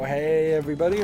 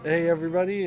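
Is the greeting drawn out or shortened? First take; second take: drawn out; shortened. First: The greeting is stretched out long. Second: The greeting is clipped, with "every" dropped. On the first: "they typed it in really long, and and sometimes I do say it that way" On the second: "I drop the the every"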